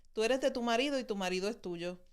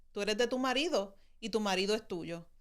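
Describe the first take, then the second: The two takes are said the same way.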